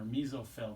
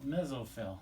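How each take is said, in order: First: "mesophyll" said MEE-zoh-fill; long-e pronunciation. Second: "mesophyll" said MEZ-oh-fill; short-e pronunciation. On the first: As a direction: say "mesophyll" with a long ee in the first syllable. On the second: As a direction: say "mesophyll" with a short e, as in "mess", plus a z. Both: Shown as a demonstration. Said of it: "depending on who you talk to".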